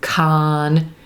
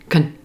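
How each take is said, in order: First: A full syllable with an open 'ah' vowel. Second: A quick, reduced syllable with an 'uh' vowel. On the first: The syllable is stressed. "Very different from con" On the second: The syllable is unstressed. "It's reduced. It's going to sound like kun"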